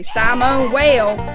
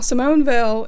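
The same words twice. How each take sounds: First: The name is said in a heavy Appalachian accent. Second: The name is said without an Appalachian accent. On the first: "I am Appalachian though, so just be glad I didn't say" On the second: "if you have a problem with my pronunciation, take it up with the fact that I'm not French"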